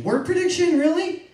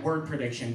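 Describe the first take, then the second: First: Scoffing outburst of "really?"; incredulous. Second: Said in the usual way. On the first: Acted. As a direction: repeat it as if it's absurd, pitch jumping up. Repeats the term in disbelief.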